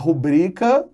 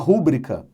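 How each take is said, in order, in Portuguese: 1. A tônica fica na sílaba padrão. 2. A tônica fica em uma sílaba deslocada. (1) "é o correto"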